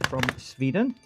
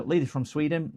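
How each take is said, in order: First: Mock Swedish accent. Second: Said in the usual way. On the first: Streamer introduces the leader from Sweden, dodgy Swedish accent. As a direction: put on a rough Swedish accent. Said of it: "don't know if that's a Swedish accent". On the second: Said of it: "doing terrible accents".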